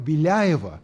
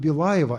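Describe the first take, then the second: First: The L is soft, followed by 'ya'. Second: The L is hard, followed by a plain 'a'. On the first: The speaker calls it right. "а Беляево" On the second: The speaker calls it wrong. "Многие американцы говорят: «Я живу в Белаево»"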